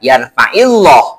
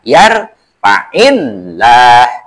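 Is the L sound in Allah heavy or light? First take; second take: heavy; light. First: The L sound is heavy and thick. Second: The L sound is light and thin. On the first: The speaker calls it wrong. "jangan dibaca yarfa'illah" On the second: The speaker calls it right. "harus dibaca tipis, harus dibaca tarkik"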